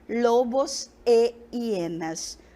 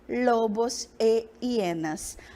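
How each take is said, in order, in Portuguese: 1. A conjunção é uma vogal 'e' clara antes de hienas. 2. A conjunção é uma vogal 'e' clara antes de hienas.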